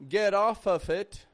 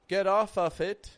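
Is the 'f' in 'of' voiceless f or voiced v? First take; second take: f; f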